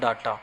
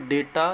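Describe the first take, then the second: First: The first vowel sounds like 'ah'. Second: The first vowel sounds like 'ay'. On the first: "या डाटा" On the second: "इसका उच्चारण दोनों तरीके से होता है, डेटा"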